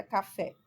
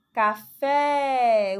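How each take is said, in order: First: Said in the usual way. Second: "Café" called out loud, last syllable stretched long; loud, drawn-out stress on the FÉ of "Café"; calling out. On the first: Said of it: "como se estivesse chamando alguém". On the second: Shown as a demonstration. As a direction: call "Café" as if to someone, holding the FÉ. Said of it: "você fala a palavra como se estivesse chamando alguém".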